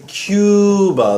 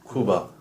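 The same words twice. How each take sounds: First: It starts with a 'kyoo' sound like 'cube'. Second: It starts with a plain 'koo' sound. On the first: "Americans say Cuba, like a cube" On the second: "the actual Spanish pronunciation"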